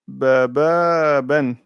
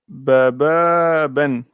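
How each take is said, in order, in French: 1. Les voyelles sont prolongées. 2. Les voyelles sont prolongées.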